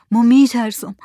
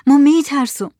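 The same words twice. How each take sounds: First: A frightened first plea, voice starting to shake; trembling fearful voice. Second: Higher, more desperate repeat of the fear; trembling fearful cry. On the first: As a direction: say it scared, holding back a little. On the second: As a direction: let the fear break out on the repeat. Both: A narrator's reading. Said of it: "با صدای لرزان گفت".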